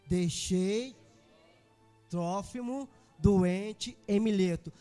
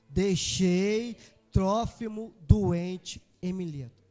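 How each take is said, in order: First: It is said at normal volume. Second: It is said very loudly.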